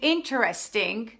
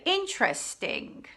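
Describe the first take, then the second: First: Every syllable is pronounced in full. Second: A sound or syllable is dropped. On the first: "Instead of saying" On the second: "you can say"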